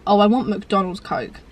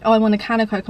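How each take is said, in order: First: Slow, longing craving. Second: Said in the usual way. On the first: Retold or imitated. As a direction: draw it out like you're desperate for it. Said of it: "I'm like". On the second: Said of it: "I'm not like".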